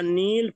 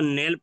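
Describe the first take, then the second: First: The vowel is a long 'ee' sound. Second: The vowel is an 'ay' sound. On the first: "ये सबके सब क्या थे? याय मारूफ थे।" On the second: "तो ये मजहूल हो जाएगी।"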